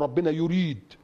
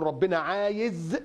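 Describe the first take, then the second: First: Firm correction ending on يريد; measured replacement landing on يريد; correct wording example. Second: عايز held long; slow quote dwelling on عايز; wrong wording example. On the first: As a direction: state يريد as the proper word, with a falling close. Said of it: "لا، نقول". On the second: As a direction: stretch عايز slowly as the word not to use. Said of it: "ما نجيش نقول". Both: Shown as a demonstration.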